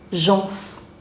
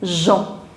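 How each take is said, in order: First: The final consonant is sounded. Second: The final consonant is silent. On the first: The speaker calls it wrong. "this I have seen students pronouncing it as gens" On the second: The speaker calls it right. "you do not pronounce the last consonant, so it is Jean"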